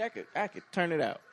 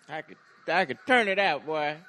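First: Said in the usual way. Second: Loud, boastful cookout uncle; booming tipsy uncle. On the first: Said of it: "You sound like somebody's uncle". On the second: Pretend. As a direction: brag like an uncle after a few drinks. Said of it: "You sound like somebody's uncle after his third cup of Hennessy".

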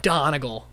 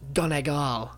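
First: Plain, unaccented "Donegal"; usual English reading of Donegal. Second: "Donegal" with the weight on the last syllable, GAWL; slow, drawn-out "Donegal", ending in a long -gawl; local pronunciation of Donegal. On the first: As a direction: say "Donegal" as it is spelled. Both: Shown as a demonstration. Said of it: "But it's pronounced Donegal".

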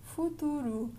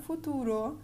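First: "futuro" with the final O softened to U; right pronunciation. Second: "futuro" ending in a full, open O; the wrong way, "futuro" with a clear final O; wrong pronunciation. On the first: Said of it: "we see this futuro". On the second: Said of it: "not futuro". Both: Shown as a demonstration.

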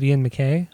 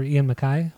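First: [name] ending to rhyme with "day"; [name] as mac-KAY. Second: [name] ending to rhyme with "sky"; [name] as mac-KYE. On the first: Offering one guess at the singer's name, [name] said muh-KAY. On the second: Offering the other guess at the name, [name] said muh-KYE. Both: Shown as a demonstration. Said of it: "however you pronounce his name".

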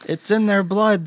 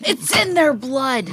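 First: Lightly voiced villager, slow, higher; a hint of an angry townsperson; mock villager. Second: Slow, lightly voiced grim line; mock villager. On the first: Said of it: "town hall meeting where they're like". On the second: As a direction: drag it out like a spooky villager. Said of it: "maybe I'm Frankenstein".

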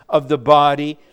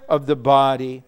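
No difference in how they are said.

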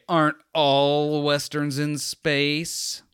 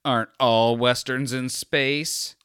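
First: Slow, smug, higher know-it-all drawl; sarcastic confidence. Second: Smug douchebag. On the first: Podcaster mocking his own smug question, drawn out. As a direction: lean into the smugness, stretch every word. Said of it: "sarcastic confidence". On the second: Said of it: "I'm that douchebag also that's like". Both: Retold or imitated.

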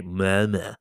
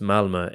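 First: Malmö in a put-on Skånsk accent; attempted Skånsk pronunciation of Malmö; best Skånsk accent. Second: Said in the usual way. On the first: Shown as a demonstration. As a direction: say Malmö like a local from Skåne, in Skånsk. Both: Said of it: "That was my best Skånsk accent".

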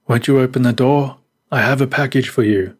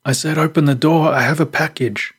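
First: Higher, mildly raised stranger's call. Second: Higher-pitched, irritated demand; angry call. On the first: Stranger to children hiding inside, calling out. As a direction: call politely through a closed door. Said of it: "the man called out". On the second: Stranger ignored at the locked door, calling out angrily. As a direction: call out angrily, insisting on being obeyed. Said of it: "The man called out angrily". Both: A narrator's reading.

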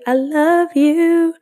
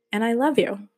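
First: Higher, louder, slow drawn-out I love you; gushing final i love you. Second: Said in the usual way. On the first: Real, not acted. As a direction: stretch it out big and high like a happy farewell. Final drawn-out sign-off to listeners.

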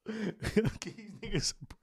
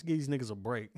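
First: Drawn out slowly through laughter; laughing. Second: Said in the usual way. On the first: Real, not acted. Host joking his hiatus lets rivals catch up, laughing. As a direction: crack yourself up on the line.

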